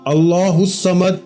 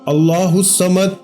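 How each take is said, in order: First: Each word is pronounced separately and carefully. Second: The same.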